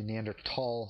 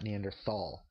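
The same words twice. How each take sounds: First: The th is said as a plain t. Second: The th is said as an English th. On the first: The speaker calls it right. "it's actually Neanderthal, ... th is pronounced ... as a t" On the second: The speaker calls it wrong. "not Neanderthal"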